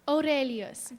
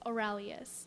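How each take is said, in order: First: The r sound is rolled. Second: The r sound is plain, not rolled.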